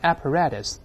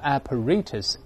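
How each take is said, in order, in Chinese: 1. 它读的是美式发音。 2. 它读的是英式发音。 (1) "在美国一般读成apparatus" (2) "当然也有人读成apparatus，尤其在英国"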